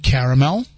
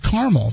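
First: "caramel" said in three syllables, CARE-uh-mel; full three-syllable caramel. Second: "caramel" squeezed to two syllables, CAR-mul. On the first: Host posing tonight's burning question, "caramel" in three syllables. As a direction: sound out every syllable of "caramel", ending on -mel. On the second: Host offering the rival option, "caramel" as CAR-mul. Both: Shown as a demonstration.

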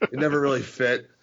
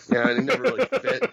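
First: Said in the usual way. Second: High and fast, never punched; excited. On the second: Real, not acted. The host rushes his point about the gimmick, high and fast. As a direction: rattle it off, high and quick.

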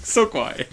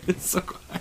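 First: Said in the usual way. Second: Mock whisper, unvoiced. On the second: Shown as a demonstration. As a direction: breathe it out in a whisper. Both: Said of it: "He's whispering".

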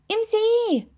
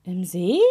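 First: High, excited exclamation. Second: Said in the usual way. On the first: A narrator's reading. Toe telling the sleepy witch where it glows, excited. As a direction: cry it out high and impatiently.

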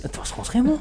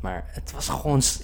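First: Schimmel pitched high with a rise; stress on schimmel. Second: Said in the usual way. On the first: Real, not acted. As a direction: hit "schimmel" high, rising in disbelief. Disgusted about moldy cheese.

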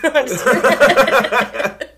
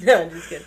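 First: Laughing. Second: Said in the usual way. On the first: Real, not acted. Laughing off a joke.

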